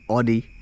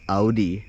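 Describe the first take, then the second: First: The brand name is said the Indian way. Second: The brand name is said the standard way. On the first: "here in India we are more accustomed to saying Audi" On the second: "the correct pronunciation is Audi"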